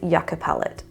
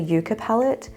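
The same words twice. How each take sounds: First: Yucca is said in its standard pronunciation. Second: Yucca is said in a playful nickname pronunciation. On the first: It is the proper name. The speaker calls it right. "pronounced correctly" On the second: It is a private joke. The speaker calls it wrong. "I will be calling this the Yucca palette because that just sounds a lot nicer to say"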